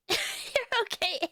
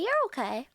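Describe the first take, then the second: First: High, slow, teasing "You're okay"; a mock-grudging "You're okay"; drawn-out teasing. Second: Said in the usual way.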